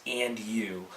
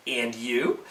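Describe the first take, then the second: First: Said in the usual way. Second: "And you?" with the pitch rising on "you"; question intonation. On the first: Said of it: "the two words". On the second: Shown as a demonstration. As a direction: turn "And you?" into a soft question, lifting "you". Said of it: "by putting a question mark".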